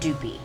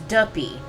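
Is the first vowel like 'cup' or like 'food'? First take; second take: food; cup. First: The first vowel is long, as in food. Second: The first vowel is short, as in cup. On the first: The speaker calls it wrong. "not doopy" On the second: The speaker calls it right. "it's duppy"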